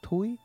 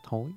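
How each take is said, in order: First: The word has a close 'u' vowel. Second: The word has a mid 'ô' vowel. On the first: "người ở miền Tây Nam Bộ thì người ta kêu là thúi" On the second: "người ta thường thì viết là thối"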